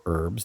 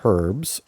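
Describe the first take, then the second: First: American-style herbs, no H sounded; herbs with silent H. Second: Herbs, British-style with an audible H. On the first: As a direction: drop the H in herbs. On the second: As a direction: sound the H in herbs. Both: Shown as a demonstration. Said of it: "depending how you want to pronounce it".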